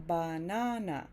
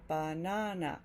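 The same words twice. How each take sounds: First: All three syllables get equal stress. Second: All three syllables get equal stress.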